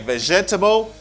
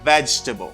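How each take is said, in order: First: The word is said with four syllables. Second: The word is said with three syllables. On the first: The speaker calls it wrong. "you don't say vegetable" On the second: The speaker calls it right. "You don't pronounce this syllable"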